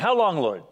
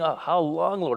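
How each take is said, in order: First: It is said in a demanding tone. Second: It is said in a pleading tone.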